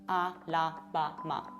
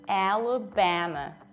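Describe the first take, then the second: First: The vowels are said with a vertically open mouth. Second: The vowels are said with lips spread sideways. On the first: The speaker calls it wrong. "they open their mouth like this, so vertically" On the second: The speaker calls it right. "we spread our lips to the sides"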